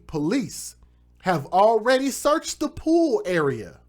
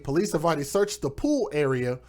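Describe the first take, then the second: First: It is read slowly and deliberately. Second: It is read at a normal pace.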